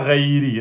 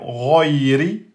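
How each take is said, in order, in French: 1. Le premier R n'est pas emphatique, avec une couleur 'e'. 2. Le premier R est très emphatique, avec une couleur 'o'. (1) "c'est pas reiri, ré, ok? Donc ré, c'est pas bon" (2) "vous l'emphatisez bien et ça fait roiri"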